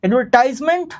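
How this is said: It is said with an American English pronunciation. "American English"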